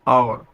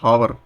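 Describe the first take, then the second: First: The word begins with a vowel sound. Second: The word begins with an h sound. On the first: The speaker calls it right. "इसको बोला कैसे जाता है English में" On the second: The speaker calls it wrong. "कई लोग इसको क्या बोलते हैं"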